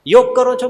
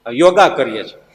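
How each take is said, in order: First: Said in the usual way. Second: યોગા said with a long final a, the English way; added final a. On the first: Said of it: "બોલો ને". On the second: Shown as a demonstration. Preacher mimics people saying યોગા with an added a. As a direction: end યોગા on a drawn a. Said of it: "તમે તો યોગ બોલો".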